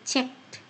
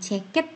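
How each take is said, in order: First: The ending is a plain consonant sound. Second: The ending adds an extra 'it' syllable. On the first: The speaker calls it right. "tetapi checked" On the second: The speaker calls it wrong. "Bukan checked"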